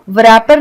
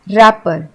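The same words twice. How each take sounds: First: रैपर with a w sounded before the r; wrong pronunciation. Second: रैपर starting straight on r, w silent; correct pronunciation. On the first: Teacher showing what we don't say, mispronounced with sounded w. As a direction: begin रैपर as v-rapper. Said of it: "इसको हम रैपर नहीं बोलते". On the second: Teacher showing how we say it, correct with silent w. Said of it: "क्योंकि इसमें W silent है". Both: Shown as a demonstration.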